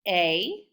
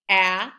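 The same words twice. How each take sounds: First: The vowel is said with its long sound. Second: The vowel is said with its short sound. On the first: "When they say the long sound, they just say their name" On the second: "The vowels can say their short sound"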